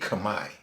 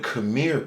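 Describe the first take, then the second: First: The word has a native-style pronunciation. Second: The word has an American-style pronunciation. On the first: The speaker calls it right. "in actuality Khmer" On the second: The speaker calls it wrong. "that's the American way of saying it"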